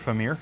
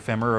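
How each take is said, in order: First: The word ends with a long 'meer' sound. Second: The word ends with a short 'mer' sound. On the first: The speaker calls it right. "over Femir" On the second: The speaker calls it wrong. "I say that wrong, but I can't make myself say it right, because I just prefer Femmer"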